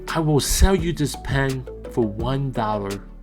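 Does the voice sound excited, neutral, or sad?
sad. It is said in a sad, calm, subdued voice. "Here is my sad recording voice"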